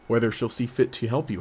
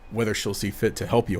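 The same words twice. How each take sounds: First: The character voice is weak and half-hearted. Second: The character voice is full and committed. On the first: The speaker calls it wrong. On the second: The speaker calls it right.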